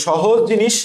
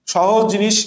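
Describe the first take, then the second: No difference in how they are said.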